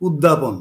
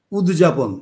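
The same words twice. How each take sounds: First: উদ্যাপন said as "ud-dya-pon", with the য as a joined jofola; the right way: উদ্যাপন, d carried into dya; correct pronunciation. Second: উদযাপন said as "ud-ja-pon", with d and j sounded apart; the common wrong way: উদযাপন as "ud-ja-pon"; wrong pronunciation. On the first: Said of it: "উচ্চারণটা হবে". (শুদ্ধ উচ্চারণ: উদ্যাপন, দ-এর সঙ্গে য-ফলা যুক্ত করে) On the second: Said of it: "উদযাপনটা ভুল উচ্চারণ". (ভুল উচ্চারণ: উদযাপন, দ আর জ আলাদা করে) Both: Shown as a demonstration.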